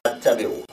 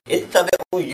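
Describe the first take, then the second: First: The word begins with an 'a' vowel. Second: The word begins with an 'i' vowel. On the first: The speaker is saying that they themselves follow. The speaker calls it wrong. "They just guess it's attabi'u and that is wrong" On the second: The listeners are commanded to follow. The speaker calls it right. "Ittabi'u, you follow, all of you"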